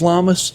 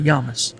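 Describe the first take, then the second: First: The name begins with an L sound. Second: The name begins with a Y sound. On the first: The speaker calls it wrong. "in redneck English, it's Lamas" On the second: The speaker calls it right. "need to say it correctly"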